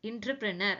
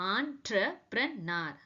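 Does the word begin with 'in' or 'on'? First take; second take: in; on. First: The word begins with an 'in' sound. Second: The word begins with an 'on' sound. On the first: The speaker calls it wrong. "That is totally wrong" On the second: The speaker calls it right. "ஒரிஜினலா இது எப்படி சொல்லணும்னா ஆண்டர்பிரனர்"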